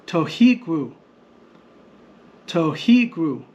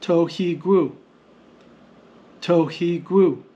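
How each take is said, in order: First: "Tohigru" with the middle "hi" punched; stress on HI. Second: "tohigru" measured out in even syllables; no marked stress. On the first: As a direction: hit "hi" in "Tohigru", then fall. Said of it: "shows us where the stress mark goes". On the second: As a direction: sound out "tohigru" as to, hi, gru, evenly. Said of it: "The standard transliteration shows us". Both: Shown as a demonstration.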